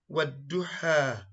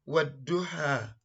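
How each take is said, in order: No difference in how they are said.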